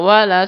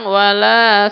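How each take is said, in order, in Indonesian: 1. Vokal setelah l itu pendek. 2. Vokal setelah l itu panjang. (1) "Lamnya harusnya pendek" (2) "kalau dibacanya panjang"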